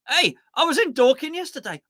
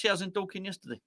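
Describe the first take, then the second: First: Bright, higher and louder, showing off the trip to chat; telling the stream chat excitedly about the day out; excited news. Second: Quiet repeat. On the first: Eagerly sharing the Dorking trip with chat. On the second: Repeating the Dorking line quietly to chat, understated. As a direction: say it again, dropped and understated. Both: Shown as a demonstration. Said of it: "There you go".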